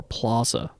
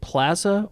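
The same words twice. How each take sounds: First: "plaza" with a broad ah as in "father"; plaza with ah sound. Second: "plaza" with a short flat a as in "plan". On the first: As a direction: say "plaza" as PLAH-zuh. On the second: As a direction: say "plaza" as PLAA-zuh, like "plan". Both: Shown as a demonstration. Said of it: "is it plaza or plaza?".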